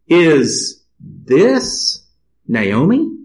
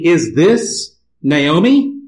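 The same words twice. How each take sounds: First: The question is read with marked, expressive inflection. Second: The question is read in a plain, neutral way.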